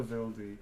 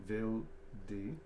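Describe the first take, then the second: First: Said in the usual way. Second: Vildi with the final E stressed and drawn out; Vildi, weight on the last syllable. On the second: Shown as a demonstration. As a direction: lean on the E of Vildi, rising at the end. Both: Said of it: "The stress on the E".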